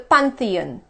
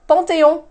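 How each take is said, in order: First: It is said with an English pronunciation. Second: It is said with a French pronunciation. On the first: "the Pantheon in English" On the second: "in French has two nasal sounds"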